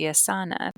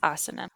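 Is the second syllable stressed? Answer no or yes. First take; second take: yes; no. First: The stress falls on the second syllable. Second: The stress does not fall on the second syllable. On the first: The speaker calls it wrong. "the emphasis would be on the second to last syllable" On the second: The speaker calls it right. "but it's asana"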